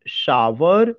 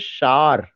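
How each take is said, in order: First: The word is said with two syllables. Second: The word is said with one syllable. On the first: The speaker calls it wrong. "अगर मैं उसका उस तरह से pronunciation करूंगा तो दो सिलेबल निकाल रहा हूं" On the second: The speaker calls it right. "इसमें केवल एक सिलेबल है"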